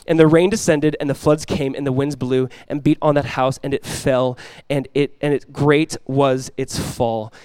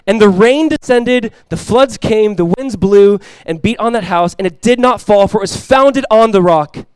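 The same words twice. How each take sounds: First: Restrained, falling delivery, drawn out at the end; subdued scripture reading. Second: Loud, high and slow preaching; ringing, drawn-out pulpit delivery; forceful scripture reading. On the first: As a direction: let the verse sink gravely to its close. Reads the fall, voice dropping. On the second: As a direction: proclaim the verse to the whole congregation. Reads the house that stands. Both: Real, not acted.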